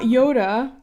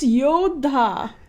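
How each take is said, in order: First: The 'd' is plain, with no breathy puff. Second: The 'd' is followed by a breathy puff. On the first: The speaker calls it wrong. "not Yoda" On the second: The speaker calls it right. "It's Yodha"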